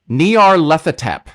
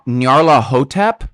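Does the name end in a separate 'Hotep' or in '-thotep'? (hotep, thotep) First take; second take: thotep; hotep. First: The name runs together, ending in '-thotep'. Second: The name ends with a separate word, 'Hotep'. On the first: The speaker calls it right. "That's actually how you pronounce the stupid name of this thing" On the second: The speaker calls it wrong. "I always want to say Nar- Nyarla Hotep, like like it's like an Egyptian um like entity"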